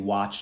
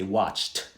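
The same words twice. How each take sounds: First: The ending does not sound like a t. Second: The ending sounds like a hard t. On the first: The speaker calls it wrong. "We don't say watched" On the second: The speaker calls it right. "Sounds like a T on the end of that"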